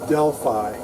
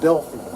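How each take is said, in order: First: The last syllable sounds like 'fye'. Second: The last syllable sounds like 'fee'. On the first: This is how the speaker says it. The speaker calls it right. "It's Delphi. That's how I pronounce it" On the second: This is how other people say it. The speaker calls it wrong. "The people at Tektronix call it Delphi"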